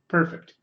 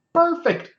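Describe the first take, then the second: First: Said in the usual way. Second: PERFECT in a sudden high squeal; high-pitched self-praise. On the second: Acted. Streamer praising own accent, mock high-pitched delight. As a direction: squeak out "Perfect" far above normal.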